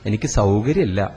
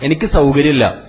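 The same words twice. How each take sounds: First: It is said softly and politely. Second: It is said loudly and rudely. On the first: An apologetic request to be excused. The speaker calls it right. "Voice കുറച്ച് പറഞ്ഞു നോക്കൂ. ... Request ആണത്" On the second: A dismissive refusal. The speaker calls it wrong. "പോടോടുന്ന് മോളെ കല്യാണം പറയാൻ വേണ്ടി വന്നിരിക്കണു അല്ലേ?"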